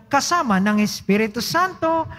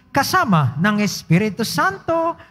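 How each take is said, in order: No difference in how they are said.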